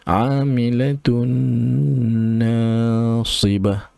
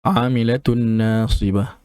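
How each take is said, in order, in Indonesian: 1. Bunyi nasal n ditahan lama. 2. Bunyi nasal n diucapkan cepat. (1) "dua dua harakat kita tekan dia" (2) "jangan terlalu laju dekat situ"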